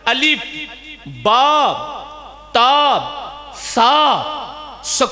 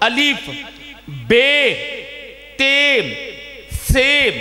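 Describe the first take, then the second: First: The letters are named in the Quranic Arabic way. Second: The letters are named in the Urdu school way.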